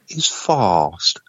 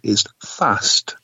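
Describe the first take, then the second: First: The vowel is a long southern ah. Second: The vowel is a short flat a.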